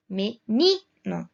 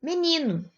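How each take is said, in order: First: Menino very slow, syllable by syllable, NI strongest; stress on NI. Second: Said in the usual way. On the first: Shown as a demonstration. Teacher showing the tonic syllable, Menino split with stressed "ni". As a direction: break up Menino and punch the "ni". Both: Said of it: "O ni é a sílaba tônica".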